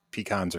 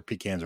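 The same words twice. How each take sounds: First: "pecans" said pee-KAHNS; pee-KAHN pronunciation. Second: "pecans" said pee-CANS; pee-CAN pronunciation. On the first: Listing rival ways to say the nut, "pecans" as pee-KAHNS. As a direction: open the second vowel of "pecans" to AH. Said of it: "everybody talks about". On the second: Listing rival ways to say the nut, "pecans" as pee-CANS. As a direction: use the vowel of cat in "pecans". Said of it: "or pecans or whatever". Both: Shown as a demonstration.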